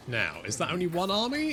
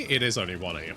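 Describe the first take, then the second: First: Rising question on army; asking question. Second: It stressed, falling flat statement; confirming answer. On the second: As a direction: confirm it, leaning on It. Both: Real, not acted.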